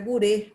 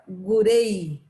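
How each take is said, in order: First: The final vowel stays a pure closed 'e'. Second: The final vowel glides into an 'ee' sound. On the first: The speaker calls it right. "mas é gurê" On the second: The speaker calls it wrong. "quem fala inglês, quando pronuncia, fala gurei ... como se fosse o E Y para eles"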